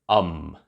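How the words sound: The filler sound uses an English vowel. The speaker calls it right. "hesitate in English"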